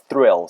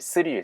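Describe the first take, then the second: First: The word begins with the tongue between the teeth. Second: The word begins with a plain s sound. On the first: The speaker calls it right. "thrill 사운드예요" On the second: The speaker calls it wrong. "스릴이다 할 때 그 스릴이 아니에요"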